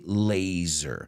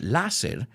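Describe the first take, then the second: First: The middle consonant is a buzzing Z sound. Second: The middle consonant is a hissing S sound. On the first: The speaker calls it right. "We say laser. Laser precision. Zzz" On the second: The speaker calls it wrong. "we don't pronounce it láser"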